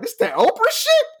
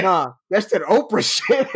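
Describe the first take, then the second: First: Very high, incredulous echo; can't believe what he just heard; squeaky high disbelieving repeat; amazed question. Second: Slow, unbothered confirmation; calmly setting him straight; slower, laid-back reply; matter-of-fact bartender. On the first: Repeating bartender's claim, amazed. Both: Retold or imitated.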